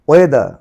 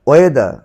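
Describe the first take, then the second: No difference in how they are said.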